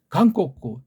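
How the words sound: It is said the Japanese way, three syllables. "재팬은 한자 소리 발음하니까"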